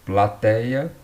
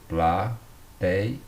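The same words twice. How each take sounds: First: Said in the usual way. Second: "Plateia" divided pla-tei-a; syllable by syllable. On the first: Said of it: "Plateia perdeu o acento". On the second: Shown as a demonstration. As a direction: break "Plateia" into three separate syllables. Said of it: "na penúltima sílaba".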